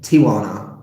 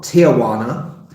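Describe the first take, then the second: First: The word is said with fewer syllables. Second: The word is said with extra syllables. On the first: The speaker calls it right. "it's not that many syllables" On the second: The speaker calls it wrong. "as I used to pronounce it"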